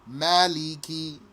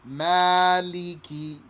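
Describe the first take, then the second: First: The first vowel is kept short. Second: The first vowel is stretched long. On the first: "without the extension" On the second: "Stretch the vowel"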